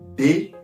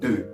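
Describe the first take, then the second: First: The vowel is said with unrounded lips. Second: The vowel is said with rounded lips. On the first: "you're supposed to say de" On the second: "When you round your lips, it's going to sound like deux"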